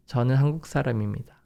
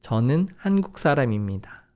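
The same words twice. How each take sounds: First: Rattled off at native speed; fast natural Korean. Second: Fast. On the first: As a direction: fire it off quickly, no pauses. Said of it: "It's gonna be very faster". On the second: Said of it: "One more time". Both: Shown as a demonstration.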